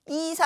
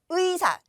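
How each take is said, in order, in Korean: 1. 첫 모음은 단순한 i로 발음해요. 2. 첫 모음은 이중모음 ui로 발음해요. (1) "이사 안 됩니다" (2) "의로만 발음합니다"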